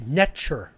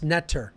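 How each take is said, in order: First: The middle consonant is a ch sound. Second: The middle consonant is a plain t sound. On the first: This is how it was said in ancient Egypt. The speaker calls it right. "It was actually pronounced netcher. The T is a ch sound" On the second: This is the English phonetic equivalent. The speaker calls it wrong. "it was actually not pronounced netter"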